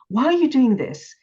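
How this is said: The question sounds furious and judging.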